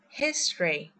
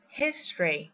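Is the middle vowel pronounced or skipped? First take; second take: skipped; skipped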